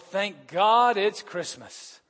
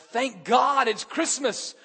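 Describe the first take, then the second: First: It is said with a weary, relieved sigh. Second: It is said with joyful, grateful warmth. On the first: Relief that the busy season is finally here. The speaker calls it wrong. "Not the usual song of relief" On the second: Real thanks to God for Christmas. The speaker calls it right. "We want the former"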